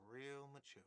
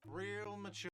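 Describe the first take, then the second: First: Said in the usual way. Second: High, nasal-free whine of mockery; whiny voice. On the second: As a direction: whine it out sarcastically. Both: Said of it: "a whiny voice".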